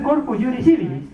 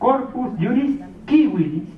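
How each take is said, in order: First: Civilis starts with a soft S sound. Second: Civilis starts with a hard K sound. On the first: The speaker calls it wrong. "no es corpus juris civilis" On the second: The speaker calls it right. "la C para los latinos, para los romanos se pronunciaba como K"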